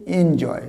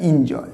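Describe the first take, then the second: First: এনজয় beginning with "en"; correct pronunciation. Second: Enjoy said as "IN-joy"; wrong-example enjoy, close "i" not "en"; rejected pronunciation. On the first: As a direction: say এনজয় as "EN-joy". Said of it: "না, এর উচ্চারণ হচ্ছে". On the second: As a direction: say enjoy with "in" for the first syllable. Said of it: "not the". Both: Shown as a demonstration.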